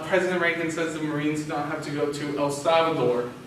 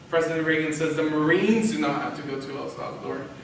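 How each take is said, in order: First: The stress is on El Salvador. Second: The stress is on Marines.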